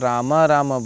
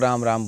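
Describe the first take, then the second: First: Each word ends with a full vowel after m. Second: Each word ends on a bare consonant m. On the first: It is correct but sounds strange to listeners. "है तो वो correct, पर आपके लिए वो असहज हो जाएगा" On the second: It is the familiar everyday greeting. "वो चलन की भाषा में"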